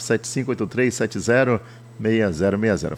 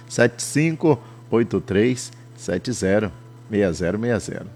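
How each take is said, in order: First: The number is said fast. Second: The number is said slowly.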